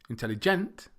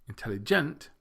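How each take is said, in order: Both takes have the same delivery.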